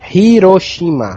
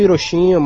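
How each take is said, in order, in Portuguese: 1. Fala-se de um jeito japonês. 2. Fala-se de um jeito brasileiro.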